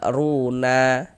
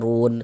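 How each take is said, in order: First: The word ends with an added vowel sound. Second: The word ends on a closed consonant sound. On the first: The speaker calls it wrong. "Jangan dibaca runa baru berhenti" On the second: The speaker calls it right. "Namun dibaca run"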